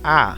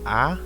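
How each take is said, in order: First: The vowel is said in a raised voice. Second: The vowel is said in a plain voice. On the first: The speaker calls it right. "avèk yon vwa ki pi elve" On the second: The speaker calls it wrong. "Ou pap di a"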